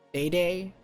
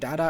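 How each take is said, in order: First: The name is said with a long A vowel. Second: The name is said with an 'ah' vowel. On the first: The speaker calls it wrong. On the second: The speaker calls it right.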